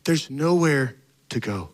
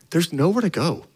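First: There's nowhere to go, said slowly and softer, letting it sink; slow hushed repeat. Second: Said in the usual way. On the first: Shown as a demonstration. Pastor repeats the line to the church, slow and hushed.

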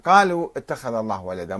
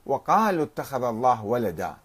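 First: قالوا starts straight on q, no "wa"; قالوا with no leading w sound; without waw. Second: وقالوا opened with "wa"; وقالوا starting on a w sound; with added waw. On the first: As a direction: say قالوا bare, as qalu. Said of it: "بدون واو". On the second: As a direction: say وقالوا with the leading waw, wa-qalu. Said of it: "بزيادة بعض الحروف". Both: Shown as a demonstration.

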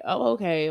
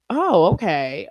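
First: Said in the usual way. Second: Mock shocked reaction; surprised oh okay. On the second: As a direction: act out a listener caught off guard. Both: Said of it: "y'all would have been like".

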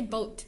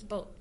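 First: "boat" with a released T; sounded T. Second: "boat" with the T unreleased, softer; swallowed T. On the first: Co-host showing what Americans don't say, boat with full T. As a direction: finish "boat" on a crisp T. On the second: Co-host showing American speech, boat with swallowed T. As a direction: stop "boat" short of the T. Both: Shown as a demonstration. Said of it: "You don't really pronounce the T".

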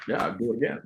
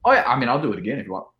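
First: Soft, muttered agreement; quiet resolve. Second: Quick, eager offer; eager rush. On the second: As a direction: rattle it off keenly. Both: Retold or imitated. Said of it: "So I was like".

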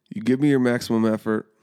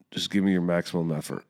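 First: Me hit harder, a touch higher and louder; firm coach's emphasis on me; retold coach's push. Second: Said in the usual way. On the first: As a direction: press the words You give me your maximum effort. Coach repeats it, pushing harder.

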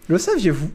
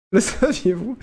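First: Said in the usual way. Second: Giggling through the words; fighting back laughter; trying not to laugh. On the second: Real, not acted. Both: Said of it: "J'essaie de garder mon sérieux".

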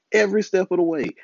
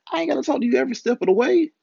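First: "Every" hit hard, then a falling "step of the way"; stress on EVERY. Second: Higher and fast, peaking on "way"; fast exasperated rant. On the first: Echoing his own complaint to his woman, stress on "Every". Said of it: "repeats the phrase for emphasis". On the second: Retelling what he told his woman, fast and much higher. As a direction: rattle "every step of the way" off quickly and fed up. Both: Retold or imitated.

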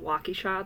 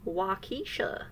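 First: Said in the usual way. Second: "Waukesha" as wah-KEE-shuh; outsiders' mispronunciation. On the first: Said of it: "when they pronounce". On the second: Retold or imitated. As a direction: lean on the middle of "Waukesha": wah-KEE-sha. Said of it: "when they pronounce, um, Waukesha, they're like".

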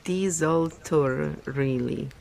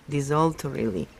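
First: Desultorily sounded out slowly, syllable by syllable. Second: Said in the usual way. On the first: Shown as a demonstration. Reader working out a hard word, desultorily said slowly. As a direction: work carefully through desultorily. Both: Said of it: "desultor-, desultorily".

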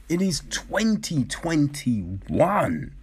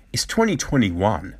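First: "twenty twenty-one" slow, each word spaced out; emphatic repeat. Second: Said in the usual way. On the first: Real, not acted. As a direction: spell out "It is twenty twenty-one" slowly and deliberately.

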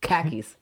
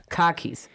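First: Said in the usual way. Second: "Khakis" as car keys, with a dropped R; Rhode Island accent. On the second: Shown as a demonstration. Showing the local way to say car keys, Rhode Island accent. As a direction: Rhode Island "Khakis", broad kah vowel. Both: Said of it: "K A H K I S".

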